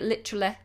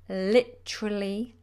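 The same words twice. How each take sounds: First: The final E vowel is short and clipped. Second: The final E vowel is full and smiling. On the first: The speaker calls it wrong. "they don't do a full E" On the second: The speaker calls it right. "Make sure you smile into the end"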